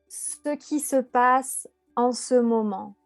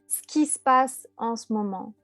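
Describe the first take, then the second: First: Every syllable is pronounced in full, uncontracted. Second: Vowels are dropped, giving contracted syllables. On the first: The speaker calls it wrong. "on va jamais dire" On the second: The speaker calls it right. "On va dire"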